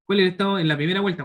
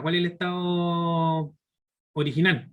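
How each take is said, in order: First: Asked fast and high; quick question. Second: Drawn out, each word separated; slow it down so students catch it; slow emphatic repeat. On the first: Teacher first asks the class quickly, raised voice. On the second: Teacher repeats the question slowly for emphasis. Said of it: "repeats the question". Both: Shown as a demonstration.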